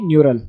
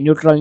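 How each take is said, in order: First: The word has no t sound before the r. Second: The word has a t sound before the r. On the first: The speaker calls it right. "ये न्यूरल है" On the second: The speaker calls it wrong. "थोड़ा सा गलत pronounce कर रहा था ... न्यूट्रल नहीं"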